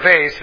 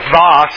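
First: It is said in an American pronunciation. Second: It is said in a French-style pronunciation. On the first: "or from America" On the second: "depending if you're from France"

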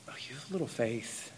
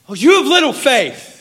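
First: The line is said in a compassionate tone. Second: The line is said in an angry tone. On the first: The rebuke comes from care. "Or is it a compassionate" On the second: The rebuke comes from frustration. "is he angry?"

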